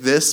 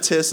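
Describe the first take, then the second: First: The word begins with a th sound. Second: The word begins with a t sound. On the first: An adult is saying it. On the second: A toddler is saying it.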